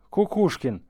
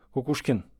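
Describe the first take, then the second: First: Booming call, high and loud. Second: Said in the usual way. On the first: A narrator's reading. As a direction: call out across the rooms. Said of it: "пронёсся зычный зов". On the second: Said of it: "мог сердиться".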